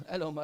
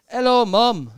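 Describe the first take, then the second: First: [name] voice. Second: Loud mock [name] hello. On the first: Retold or imitated. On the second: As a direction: boom it out like a pop star on stage. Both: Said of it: "That's sort of how he speaks".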